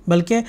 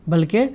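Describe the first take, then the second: The two takes are said the same way.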